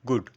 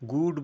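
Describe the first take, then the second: First: The vowel is kept short. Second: The vowel is drawn out long. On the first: The speaker calls it right. "শর্ট করে দিচ্ছি" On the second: The speaker calls it wrong. "গুড বলবো না"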